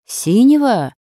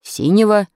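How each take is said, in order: First: Higher, louder questioning repeat; puzzled echo. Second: Prompt, higher and louder reply; ready answer. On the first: Krasilnikov repeats the blanket's colour, puzzled and struck. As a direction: echo it back in wonder. Classmate echoes the answer in puzzlement. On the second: Pupil answers about the blanket's colour, ready and eager. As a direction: answer readily, a little raised. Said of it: "с готовностью ответил Замирайло". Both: A narrator's reading.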